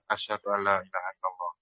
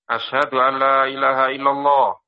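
First: The phrase is said softly. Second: The phrase is said loudly.

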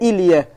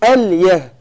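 First: The first vowel is 'i'. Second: The first vowel is 'a'. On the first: The speaker calls it wrong. "إلية بالكسر لحن" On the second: The speaker calls it right. "أليه بفتح الهمزة"

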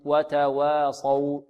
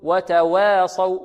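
First: The vowel after the w stays a plain a. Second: The vowel after the w leans toward e. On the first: The speaker calls it right. "مرققة" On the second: The speaker calls it wrong. "هذا تقليل أو إمالة كبرى"

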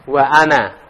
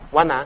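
First: A glottal stop separates wa from ana. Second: Wa runs straight into ana without a break. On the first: The speaker calls it right. "Ana kan ada hamzah qati-nya ya" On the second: The speaker calls it wrong. "Wana enggak ada"

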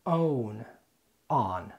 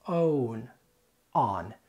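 First: The words are said in an American accent. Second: The same.

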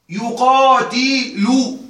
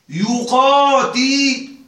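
No difference in how they are said.

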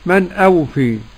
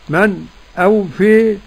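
First: The two words run on without a stop. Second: A brief silent stop comes before the second word. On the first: This is the other transmitted variant. "وعدم" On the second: This is one transmitted variant. "له السكت"

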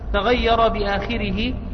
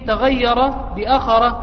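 First: The last word has a long first vowel and ends -ihi. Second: The last word has a short first vowel and ends -arah. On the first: "بمد الهمزة وكسر الخاء والراء، بعدها ضمير الغائب" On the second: "بفتح الهمزة والخاء والراء، بعدها تاء مربوطة"

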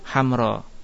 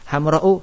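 First: The word ends on a vowel without a glottal stop. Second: The word ends with a glottal stop and vowel. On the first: "Isim mamdud dibaca isim maksur" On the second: "Isim mamdud dibaca isim maksur"

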